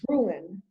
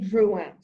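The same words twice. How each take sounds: First: The name is said with an American pronunciation. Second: The name is said with a French pronunciation. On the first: This is how Americans usually say the name. The speaker calls it wrong. "in America, we always say Drouin" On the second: This is the name's actual pronunciation. The speaker calls it right. "but it's really Drouin"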